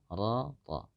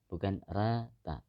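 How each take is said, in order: First: The vowel after r sounds dark, near o. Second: The vowel after r sounds bright, like a. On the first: The speaker calls it right. "seharusnya ra" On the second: The speaker calls it wrong.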